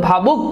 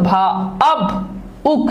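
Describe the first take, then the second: First: Said in the usual way. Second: ভাবুক in three separate pieces, "ভা, আব, উক"; syllable-split pronunciation. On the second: Shown as a demonstration. Teacher asks what is pronounced in ভাবুক, syllable-split pronunciation. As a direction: pause after "ভা" and after "আব", then "উক". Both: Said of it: "কি উচ্চারিত হচ্ছে বলো তো".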